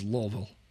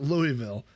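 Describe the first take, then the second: First: The name is squeezed into a short 'Lulvil' form. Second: The name is said fully, as 'Louie-ville'. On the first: The speaker calls it right. "it is basically L U L V I L" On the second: The speaker calls it wrong. "It's not Louisville"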